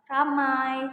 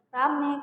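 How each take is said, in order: First: The word ends in a gliding diphthong. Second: The word ends in a single plain vowel. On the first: "contohnya adalah ramai" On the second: "yang diucapkan jadi rame"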